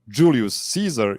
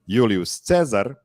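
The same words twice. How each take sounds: First: The name is said with English pronunciation. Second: The name is said with Italian pronunciation. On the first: The speaker calls it wrong. "English pronunciation ... is of course wrong" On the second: The speaker calls it right. "versus the Italian"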